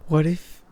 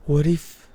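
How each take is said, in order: Both takes have the same delivery.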